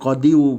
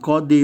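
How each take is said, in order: First: The word ends with an added 'yu' sound. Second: The word ends plainly on the 'i' vowel. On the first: The speaker calls it wrong. "tak disebut qadiyu, berat ya" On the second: The speaker calls it right. "Jadi qadi bacanya"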